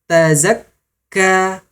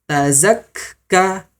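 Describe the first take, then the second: The two takes are said the same way.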